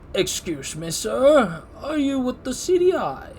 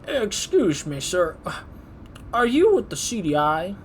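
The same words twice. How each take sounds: First: It is said in a plain voice without that accent. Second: It is said in an old man's country accent. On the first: The speaker calls it right. "That sounds a little bit better in my head" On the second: The speaker calls it wrong. "I wanted to read him in a country accent, old man"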